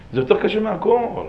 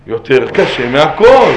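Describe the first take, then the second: First: Said in the usual way. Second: "יותר קשה מהכל" slowly and louder, word by word; emphatic repeat. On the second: Real, not acted. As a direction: drive home "יותר קשה מהכל", drawing out each word. ("יותר קשה מהכל" בהדגשה איטית וחזקה)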